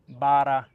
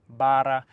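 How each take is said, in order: Both takes have the same delivery.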